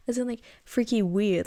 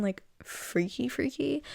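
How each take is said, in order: First: Said in the usual way. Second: "freaky freaky" said slow and soft, suggestive. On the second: Shown as a demonstration. Explaining the wrong meaning, a soft suggestive "freaky freaky". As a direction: drop the voice on "freaky freaky", lingering. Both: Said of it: "freaky as in".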